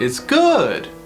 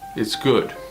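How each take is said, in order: First: The pitch goes up and then down. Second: The pitch stays fairly level throughout. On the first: "It always goes up and down" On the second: "which is tone one"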